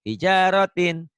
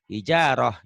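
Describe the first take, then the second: First: The word ends with a t sound and vowel. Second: The word ends with a soft h sound. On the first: The word continues into the following speech. "kalau hidup" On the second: The reader stops at this word. "kalau kita berhenti membacanya ... bunyi taknya berubah menjadi hak"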